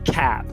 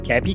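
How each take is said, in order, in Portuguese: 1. É dita com pronúncia inglesa. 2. É dita com sotaque do português brasileiro. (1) "tipo cap" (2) "O brasileiro quer falar cap"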